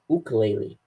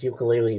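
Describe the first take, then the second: First: The word begins with an 'ook' sound. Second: The word begins with a 'yook' sound. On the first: The speaker calls it right. "It's ukulele. Uk, uk, like that" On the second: The speaker calls it wrong. "you don't pronounce it as ukulele"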